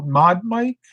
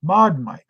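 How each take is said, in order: First: "mod mic?" asked with a rising, puzzled tune; puzzled question. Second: "Mod mic." said with a falling tune, confirming; settled statement. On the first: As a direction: say "mod mic?" like checking an unfamiliar name. Repeats commenter's unfamiliar term. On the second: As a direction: say "Mod mic." as a noted fact. Confirms the term to himself. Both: Real, not acted.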